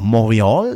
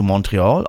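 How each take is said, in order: First: The name is pronounced the French way. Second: The name is pronounced the English way.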